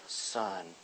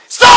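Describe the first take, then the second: First: It is said calmly and gently. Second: It is said sharply and angrily.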